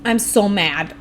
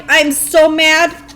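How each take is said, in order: First: Said in the usual way. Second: Loud, higher and slow, stretching each word; milk the anger, dragging it out; drawn-out mad. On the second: Real, not acted. Gamer venting to chat, loud and slow mock-mad.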